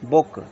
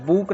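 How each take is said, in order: First: The vowel is short, as in 'good'. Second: The vowel is long, as in 'moon'. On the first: The speaker calls it right. "इसको पढ़ेंगे बुक" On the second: The speaker calls it wrong. "इसको बुक नहीं पढ़ेंगे"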